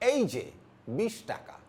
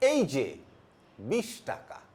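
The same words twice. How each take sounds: First: It is said at a normal speaking pace. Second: It is said at a slow, deliberate pace.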